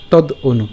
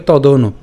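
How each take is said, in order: First: "তদ অনু" split in two, tod, then onu; broken up. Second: "তদ অনু" run together as one word, to-do-nu; joined up. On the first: Teacher shows the split option, broken up. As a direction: stop on the d of "তদ অনু" before the vowel. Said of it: "অথবা ভেঙে উচ্চারণ করতে পারি". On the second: Teacher shows the joined option, run together. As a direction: link the d of "তদ অনু" straight into the vowel. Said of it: "আমরা একসাথে উচ্চারণ করতে পারি". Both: Shown as a demonstration.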